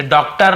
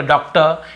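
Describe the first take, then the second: First: डॉक्टर with a full R at the end; final R sounded. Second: डॉक्टर ending in 'tuh', no R; silent R. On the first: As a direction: pronounce the last R of डॉक्टर. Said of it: "नहीं बोलते". (डॉक्टर का आख़िरी र पूरा) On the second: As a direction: drop the final R of डॉक्टर. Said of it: "र थोड़ा silent होता है". (डॉक्टर का आख़िरी र silent) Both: Shown as a demonstration.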